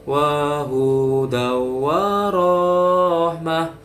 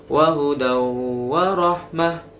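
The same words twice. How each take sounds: First: The short vowels are drawn out long. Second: The vowels are kept short and quick. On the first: The speaker calls it wrong. "Panjang-panjangkan yang pendek" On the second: The speaker calls it right. "langsung wa hudaw wa rahmah. Itu yang benar"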